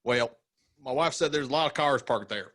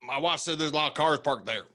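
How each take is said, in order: First: High Southern twang; Southern accent. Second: Higher Southern twang; Southern accent. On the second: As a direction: repeat it in a high twang. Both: Acted. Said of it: "the accent that you did".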